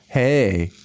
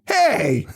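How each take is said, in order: First: It is said in a sexy, flirty voice. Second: It is said in an angry voice.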